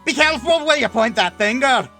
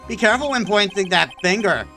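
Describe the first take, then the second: First: It is said in a different, put-on accent. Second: It is said in the speaker's usual accent.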